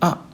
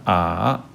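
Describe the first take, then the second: First: The syllable is said short and quick. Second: The pitch dips down then comes back. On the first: "사성의 경우에는 아 짧게 발음하면 사성에 가까워집니다" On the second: "삼성의 경우는 아"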